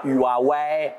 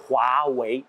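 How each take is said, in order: First: Huawei said the French way, "u-a-ouè"; French-style Huawei; wrong French reading. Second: Huawei said "wa-wei", slow, without the French U; Chinese pronunciation. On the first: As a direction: read Huawei like a French word. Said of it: "ce n'est pas Huawei". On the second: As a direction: give Huawei its Chinese sounds, "wa-wei", slowly. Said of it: "c'est Huawei". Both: Shown as a demonstration.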